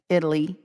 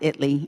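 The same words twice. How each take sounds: First: It is pronounced the usual way for the country. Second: It is pronounced the local Texas town way. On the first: It names the spelling, as for the country. "spelled like Italy" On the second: It names the Texas town as locals say it. "you have to pronounce it Italy"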